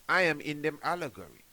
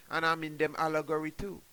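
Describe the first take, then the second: First: "I am" pressed out slightly louder, stressed on I. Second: Said in the usual way. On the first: Shown as a demonstration. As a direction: lean into "I" as a firm claim.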